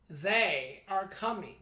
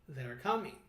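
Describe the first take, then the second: First: Both words are said separately and in full. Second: The two words are merged into one contraction. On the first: The speaker calls it wrong. "say it with me" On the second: The speaker calls it right. "Feel the difference. Contractions make your sentences faster"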